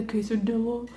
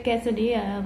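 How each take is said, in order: First: Quesadilla butchered as "kay-suh-DOO-luh"; mispronounced. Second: Quesadilla as "keh-suh-DEE-uh"; American-accented but correct "keh-suh-dee-uh" for quesadilla; Americanized pronunciation. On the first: Retold or imitated. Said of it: "something ridiculous". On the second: Shown as a demonstration. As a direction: say quesadilla properly, ending in "dee-uh". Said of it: "the Americanized version".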